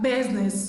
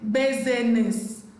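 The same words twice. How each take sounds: First: No vowel is pronounced after the S sound. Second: A vowel is pronounced after the S sound. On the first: The speaker calls it right. "It's simply what? Business" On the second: The speaker calls it wrong. "We do not say business"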